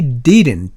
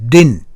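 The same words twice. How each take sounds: First: The word is said slowly with the t sounded. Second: The word is said quickly with the t dropped. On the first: "천천히 읽으면 didn't가 되겠죠" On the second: "더 빨리 하게 되면 didn't"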